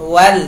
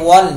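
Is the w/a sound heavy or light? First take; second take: light; heavy. First: The syllable is said thin and light. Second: The syllable is said thick and heavy. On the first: The speaker calls it right. "ที่ถูกคือวาวจะต้องบาง" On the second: The speaker calls it wrong. "ไม่ใช่วัล"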